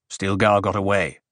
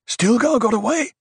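First: Said in the usual way. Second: High rising disbelieving question; surprised question. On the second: A narrator's reading. Question answered as statement.

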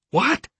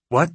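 First: High rising disbelieving what; sharp stunned question; shocked. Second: Said in the usual way. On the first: A narrator's reading. Stunned echo of the news.

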